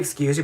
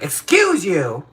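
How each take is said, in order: First: It is said plainly, without force. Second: It is said with a lot of force.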